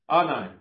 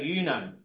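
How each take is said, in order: First: The name starts with an 'oh' sound. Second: The name starts with an 'oo' sound. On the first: The speaker calls it right. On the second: The speaker calls it wrong. "I was about to say Uno, but it's not Uno"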